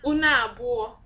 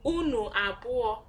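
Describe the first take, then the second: First: The words run together with the vowel elided. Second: The words are said separately with full vowels.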